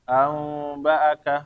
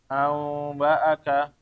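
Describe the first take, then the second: Both takes have the same delivery.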